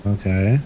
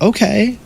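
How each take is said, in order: First: "Okay" at normal pitch, level with a small rise; flat okay. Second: "Okay" jumps up high in a bright rising lilt. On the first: Showing viewers the dull okay, said plainly. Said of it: "Or you can be like". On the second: Showing viewers a happy okay, high and bright. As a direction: chirp "Okay" way up, upbeat. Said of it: "You can be like". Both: Shown as a demonstration.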